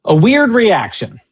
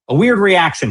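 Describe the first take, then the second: First: Slow, scornful stress on weird; mocking quote. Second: Scornful stress on weird; mocking quote. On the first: Host mocking the vice president's phrase, slow and scornful. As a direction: repeat his phrase with slow disbelief. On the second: Host quoting the vice president back, scornful. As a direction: throw his words back with disdain. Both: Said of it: "he says".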